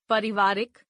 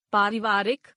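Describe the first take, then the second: First: पारिवारिक with a short first "a"; mispronounced. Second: Said in the usual way. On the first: Shown as a demonstration. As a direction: start पारिवारिक as "pari", not "paari". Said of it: "अशुद्ध". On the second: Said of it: "शुद्ध".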